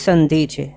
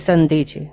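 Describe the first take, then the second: No difference in how they are said.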